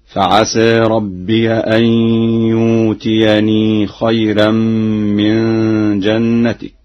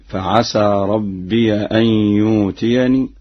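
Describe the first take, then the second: First: يؤتيني recited "yuutiyani", long uu instead of the hamza; slow recitation, saying يؤتيني as yuutiyani without a catch; hamza replaced. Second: Said in the usual way. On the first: Shown as a demonstration. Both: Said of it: "مع إبدال الهمزة هكذا".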